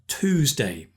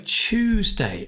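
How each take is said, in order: First: It is pronounced the American way. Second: It is pronounced the British way.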